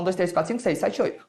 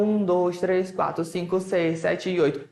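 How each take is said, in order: First: The counting is fast. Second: The counting is slow.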